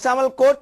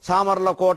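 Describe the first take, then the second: First: The name is clipped, ending on a consonant. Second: The name is said fully, ending in a vowel. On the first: The speaker calls it wrong. "వాడంటే" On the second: The speaker calls it right. "స్పష్టంగా"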